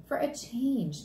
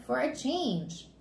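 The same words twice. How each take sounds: First: Lightly voiced father, slow; explaining dad. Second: Put-on higher, drawn-out kid voice; child echoing dad. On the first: Dad answering Fudge about moving, slowly explaining. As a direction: explain it simply and slowly to a child. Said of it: "Dad explained". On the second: Fudge throwing Dad's reason back, pointedly. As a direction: stretch the words, turning them back on your father.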